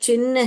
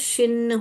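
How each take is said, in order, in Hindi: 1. शब्द ch ध्वनि से शुरू होता है। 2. शब्द sh ध्वनि से शुरू होता है। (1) "च च च च वाला ही चुनेंगे" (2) "अगर हम इसको श पढ़ेंगे"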